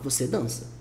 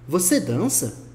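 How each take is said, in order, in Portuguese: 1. Fala-se com entonação de afirmação. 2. Fala-se com entonação de pergunta. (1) "A gente pega a frase você dança" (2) "Para perguntar, a gente só muda a entonação da frase"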